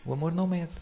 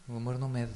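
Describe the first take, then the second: First: Higher, stressed "não"; emphatic. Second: Said in the usual way. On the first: Shown as a demonstration. Repeating that love does not measure, emphatic on "não". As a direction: punch the "não" in "O amor não mede".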